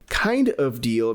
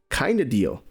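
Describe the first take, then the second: First: The word 'of' is pronounced fully. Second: The word 'of' is reduced to a schwa.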